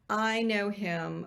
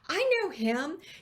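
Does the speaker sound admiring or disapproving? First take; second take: disapproving; admiring. First: It is said in a disapproving, knowing tone. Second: It is said in a warm, admiring tone. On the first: The person is remembered in a bad way. The speaker calls it wrong. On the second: The person is remembered in a good way. The speaker calls it right. "We want to be the person that they say"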